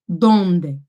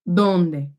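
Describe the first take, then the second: The two takes are said the same way.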